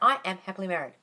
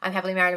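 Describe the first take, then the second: First: It is declared firmly, with strong conviction. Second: It is muttered absent-mindedly, without conviction. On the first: The words are claimed and decreed as true. The speaker calls it right. "You do it with some oomph. Not feeling, but just like conviction" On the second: The words are repeated emptily, without claiming them. The speaker calls it wrong. "don't say it like this"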